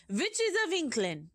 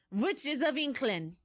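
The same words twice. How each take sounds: First: Higher, louder yell. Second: Shouted. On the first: Grand High Witch calls to her witches again, high loud yell. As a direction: call out again, sharper and higher. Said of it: "she yelled". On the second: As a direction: boom the greeting out to the hall. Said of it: "shouted the Grand High Witch". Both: Acted.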